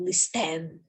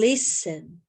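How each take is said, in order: First: The stress is on the second syllable. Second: The stress is on the first syllable. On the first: The speaker calls it wrong. "Eu não pronuncio listen ou listen. Não é assim" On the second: The speaker calls it right. "É no li. Eu falo listen"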